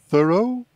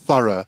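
First: It is said with an American accent. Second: It is said with a British accent. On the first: "lá se diz thorough" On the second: "que é diferente nos Estados Unidos"

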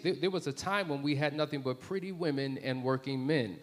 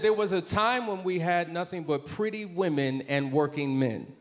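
First: The sentence is spoken quickly. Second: The sentence is spoken more slowly. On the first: The speaker calls it wrong. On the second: The speaker calls it right.

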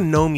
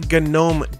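First: The word begins with a silent G. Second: The word begins with a sounded G. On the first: It names the garden creature. "It's not a GNOME you find in your garden" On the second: It names the desktop environment. "it's the GNOME desktop environment"

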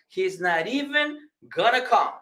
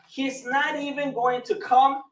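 First: Going to is reduced to gonna. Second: Going to is said in full.

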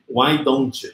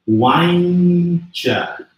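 First: Each word is said separately and fully. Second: The words blend into a reduced 'why'n'tcha'. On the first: "Todo mundo se acostuma a falar why don't you?" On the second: "a ideia agora é que você vai pronunciar assim, ó"

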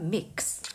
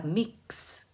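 First: The word is said quickly as one unit. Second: The word is said slowly, sound by sound. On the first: "빠르게 읽으면 mix 이렇게 되겠죠" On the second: "그래서 mix 이렇게 되는데"

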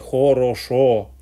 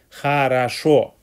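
First: The unstressed vowels are full O sounds. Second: The unstressed vowels sound like A. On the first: This is the Nizhny Novgorod regional pronunciation. "нижегородским произношением в России" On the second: This is the Moscow pronunciation. "московского аканья"

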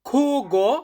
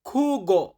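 First: The word starts with a harsh throaty kh sound. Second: The same.

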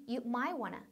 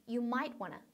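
The two takes are said the same way.

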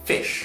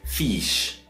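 First: The vowel is kept short. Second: The vowel is held long. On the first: The speaker calls it right. "It's fish" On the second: The speaker calls it wrong. "some Chinese people might pronounce as fish"

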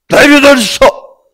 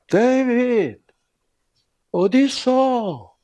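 First: It is said harshly and angrily. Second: It is said warmly and lovingly.

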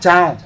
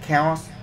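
First: It is read like the Vietnamese syllable chao. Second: It is said with the English pronunciation. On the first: "nhiều người đọc nó là chao" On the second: "tiếng Anh nó gọi là chaos"

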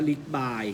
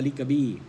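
First: The name is said in two syllables, ending 'bai'. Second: The name is said in three syllables, ending 'bee'. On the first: "บางคนก็อาจจะบอกว่าอ่านว่าลิกบายก็ได้" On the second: "คนแก่เขาอ่านว่าลิกกะบี้มันก็คงจะถูก"

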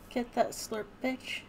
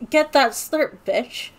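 First: It sounds flat and melancholy. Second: It sounds lively, with party energy.

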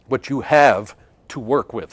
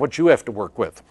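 First: Each word is clearly and carefully enunciated. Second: The words run together and are slurred. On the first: The speaker calls it right. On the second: The speaker calls it wrong.

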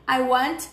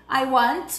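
The two takes are said the same way.

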